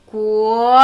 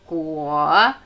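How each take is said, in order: First: Guo rising from mid pitch, firm and loud; second tone. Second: Guo starting low, dipping before it lifts; third tone. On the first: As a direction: lift Guo upward as in the word for country. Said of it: "aber in einem anderen Ton". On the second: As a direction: sink Guo low as in the word for fruit. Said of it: "Dritte hockende, gemächliche Ton". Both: Shown as a demonstration.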